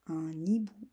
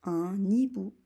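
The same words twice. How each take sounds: First: Un hibou whispered, no voice; whispered repeat. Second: Said in the usual way. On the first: Shown as a demonstration. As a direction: whisper un hibou like a secret dictation. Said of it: "répétition chuchotée du mot". (un hibou chuchoté) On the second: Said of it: "mot dicté fort".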